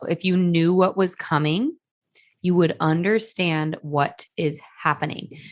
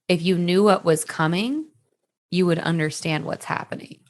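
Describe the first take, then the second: First: It is said very slowly. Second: It is said at normal speed.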